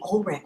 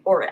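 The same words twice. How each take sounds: First: "Ulrich" said as OLE-rick, with an L; mistaken pronunciation. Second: "Ulrich" said as OR-ick, without an L; corrected pronunciation. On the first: Streamer showing a habitual slip, "Ulrich" as OLE-rick. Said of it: "I always wanna say Ulrich". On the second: Streamer correcting a viewer's surname, "Ulrich" as OR-ick. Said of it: "Ulrich, sorry". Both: Shown as a demonstration.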